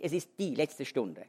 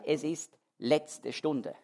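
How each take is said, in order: First: "Es ist die letzte Stunde" with the article die clearly leaned on; stress on die. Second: "es ist letzte Stunde" drawn out slowly, no article, the weight on ist; slow, without the article. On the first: Preacher contrasting the common reading with the original, stressing "die". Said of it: "die Pointe ist diese". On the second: Preacher showing the original wording to his congregation, slow and deliberate. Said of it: "im Grundtext steht nicht der Artikel". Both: Shown as a demonstration.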